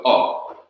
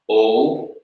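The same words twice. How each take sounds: First: O cut short as a quick clipped "o"; short O after the reduction; short O vowel. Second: O held as a long, open "oh"; long O before the reduction; long O vowel. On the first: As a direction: say O as the short vowel kamatz hatuf. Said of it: "the corresponding short vowel". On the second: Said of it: "the sound of the long vowel". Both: Shown as a demonstration.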